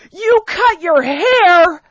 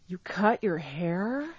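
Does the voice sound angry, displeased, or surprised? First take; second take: angry; displeased. First: The voice is loud and angry, almost shouting. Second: The voice sounds displeased and disapproving. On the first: "Sorry for shouting. / you're angry" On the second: "You don't sound like you're too happy with me"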